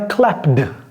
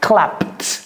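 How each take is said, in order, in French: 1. La fin n'est pas un simple son T. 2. La fin est un simple son T. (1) "Ce n'est pas clapped" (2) "C'est clapped"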